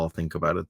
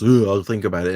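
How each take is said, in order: First: Said in the usual way. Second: Mock pondering. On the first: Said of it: "he does the whole". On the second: Host imitating Pete answering a date request, mock hesitant. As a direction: make a show of mulling it over. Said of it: "And he goes".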